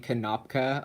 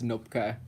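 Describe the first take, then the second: First: The initial K is pronounced as a syllable. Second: The initial K is silent. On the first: The speaker calls it wrong. "People say Kanopka a lot" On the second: The speaker calls it right. "but it's Nopka"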